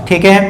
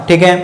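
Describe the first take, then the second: The two takes are said the same way.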